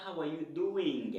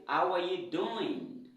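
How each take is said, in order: First: "doing" with a fully sounded, hard final G; wrong pronunciation demo. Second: "doing" with the final G barely sounded; correct pronunciation demo. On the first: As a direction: overpronounce the G ending "doing". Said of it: "je ne dis pas". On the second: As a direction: soften "doing" to nearly "doin'". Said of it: "Ça c'est how are you doing". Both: Shown as a demonstration.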